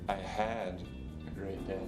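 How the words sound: The stress is on the word "had". The good day was cut short by something. "The second time, I put the stress on had"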